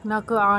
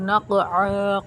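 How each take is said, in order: First: The consonant is a plain front k sound. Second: The consonant is a deep throaty q sound. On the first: The speaker calls it wrong. "नहीं पढ़ना" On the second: The speaker calls it right. "क़ाफ गले से जब हम अदा करते हैं"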